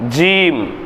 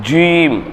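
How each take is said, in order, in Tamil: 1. இந்த எழுத்து உதடுகளை சாதாரணமாக, குவிக்காமல் சொல்லப்படுகிறது. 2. இந்த எழுத்து உதடுகளை குவித்து, சுருட்டி சொல்லப்படுகிறது. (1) "அவ்வளோலாம் ரொம்ப ரிஸ்க் எடுக்காம ஜீம் ஜீம் ஜீம் அப்படின்னு படிக்கணும்" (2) "சின்ன பிள்ளை வாயை குவிச்சு சொல்லுங்க அப்படின்னு படிச்சிருப்போம்"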